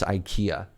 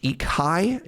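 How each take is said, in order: First: It is said the usual English way. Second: It is said the Swedish way. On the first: The speaker calls it wrong. "It's not even pronounced IKEA" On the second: The speaker calls it right. "it's pronounced Ikai"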